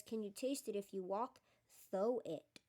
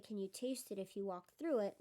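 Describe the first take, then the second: First: THOUGH in place of through, set off after a short pause; misprint read as written. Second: Said in the usual way. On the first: Shown as a demonstration. Reader showing listeners the spelling mistake, THOUGH said for through. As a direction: read the typo literally, landing on THOUGH. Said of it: "the sentence says". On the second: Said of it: "instead of saying".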